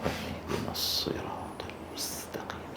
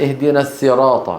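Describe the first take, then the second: First: Whispered recitation, the sad of الصراط still hissing clearly; whispered prayer. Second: الصراط said with a light seen, as السراط; imitating the seen mistake. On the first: Shown as a demonstration. Teacher showing how a lone worshipper's whisper still lets the sad be heard. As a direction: whisper it like praying alone. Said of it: "تسمع منه حروف الصفير". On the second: Teacher imitating students who misread الصراط with seen. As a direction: mimic brothers who say السراط. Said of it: "اهدنا الصراط هذه سين".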